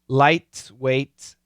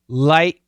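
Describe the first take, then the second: First: The T sounds are fully released. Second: The T sounds are stopped, not released. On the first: "perfect pronunciation" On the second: "Typically, we'll say"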